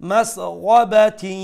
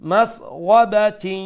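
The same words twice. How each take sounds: The two takes are said the same way.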